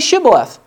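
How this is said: It starts with an 'sh' sound, Gileadite style.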